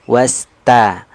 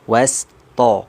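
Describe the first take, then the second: First: The ta is light, with a clear a vowel. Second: The ta is heavy, with a dark o-like vowel. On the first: The speaker calls it right. "huruf ta itu kan tipis istifal. Jadi vokalnya kan a. Sempurnakan" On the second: The speaker calls it wrong. "huruf tipisnya ikut-ikutan tebal"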